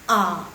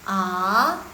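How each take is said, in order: First: The pitch goes down low. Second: The pitch rises upward. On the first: "nada ketiga dia cukup turun, biasanya nadanya turun langsung" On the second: "Nada kedua nih yang agak susah"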